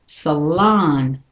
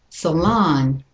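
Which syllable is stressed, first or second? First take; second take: second; second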